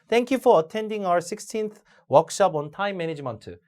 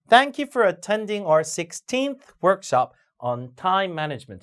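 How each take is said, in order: First: It is read flatly with no word stress. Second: Content words are read with strong stress. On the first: The speaker calls it wrong. "강세를 안 주면... 이렇게 읽으면 빵점입니다" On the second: The speaker calls it right. "이렇게 읽어야 됩니다"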